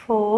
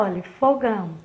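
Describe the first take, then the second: First: Fogão broken into syllables, fo - gão, with a pause between; split into syllables. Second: Said in the usual way. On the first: Shown as a demonstration. Teacher splitting the word for the children, syllable by syllable. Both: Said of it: "Vamos lá".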